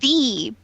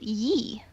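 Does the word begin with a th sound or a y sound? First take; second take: th sound; y sound. First: The word begins with a th sound. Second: The word begins with a y sound. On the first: The speaker calls it right. "It's the" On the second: The speaker calls it wrong. "you're actually not supposed to pronounce it ye"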